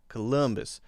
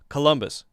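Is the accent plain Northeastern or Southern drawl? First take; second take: Southern; Northeastern. First: It is stretched out, in a Southern drawl. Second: It is said short, in a Northeastern accent. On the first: "stretched out a little bit longer" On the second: "Instead of Columbus"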